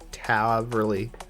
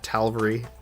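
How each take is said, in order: First: No L sound comes before the V. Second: An L sound comes before the V. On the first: The speaker calls it right. "I know there isn't an L between the A and the V" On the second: The speaker calls it wrong. "I don't know why I've always called it ta- Talvery"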